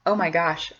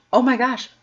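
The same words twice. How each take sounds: First: Said in the usual way. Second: Higher, louder "Oh my gosh"; a burst of real amazement; stunned delight; surprised. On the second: Real, not acted. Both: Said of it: "repeated exclamation".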